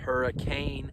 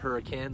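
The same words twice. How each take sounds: First: It is pronounced the way it is spelled. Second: It is pronounced the way locals say it. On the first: "I know it's spelled hurricane" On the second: "us locals out here actually pronounce it hurricane"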